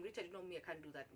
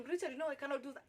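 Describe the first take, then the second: First: Soft, low, restrained refusal; keeping cool. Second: Fast, higher-pitched agitated refusal. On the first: Applicant refusing boss while agitated inside, keeping cool. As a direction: hold it in and decline quietly. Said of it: "trying to keep my cool so bad". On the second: Applicant refusing the boss's proposition, agitated. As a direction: refuse in a hurry, mildly worked up. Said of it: "that particular time I'm agitated". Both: Retold or imitated.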